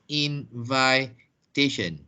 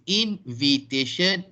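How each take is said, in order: First: Slow "invitation" as in-VAI-tation; wrong pronunciation. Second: "invitation" as in-vi-tation, short i; correct pronunciation. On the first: Teacher repeating the wrong form as warning, long-I pronunciation. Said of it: "not invitation". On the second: Teacher repeating the right noun, short-i pronunciation. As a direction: say "invitation" with a light "vi", as in vit. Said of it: "it is invitation". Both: Shown as a demonstration.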